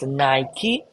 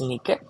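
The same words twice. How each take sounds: First: The word is said the common modern way. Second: The word is said the original Greek way. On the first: The speaker calls it wrong. "most of us will pronounce as Nike, but it's wrong" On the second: The speaker calls it right. "it's Nike"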